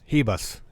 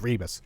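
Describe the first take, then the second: First: The name starts with an H sound. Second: The name starts with an R sound. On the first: The speaker calls it right. "even though R is silent, non-existent" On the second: The speaker calls it wrong. "I forget how to pronounce the girl's name now"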